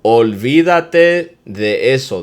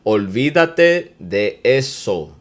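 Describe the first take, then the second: First: Olvídate de eso said slowly and a bit louder; slow demo. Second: Olvídate de eso said very slowly; slow demo. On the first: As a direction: spell it out slowly for learners. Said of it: "That's a good one". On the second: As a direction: drag it out for learners. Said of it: "O L V I D A T E". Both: Shown as a demonstration.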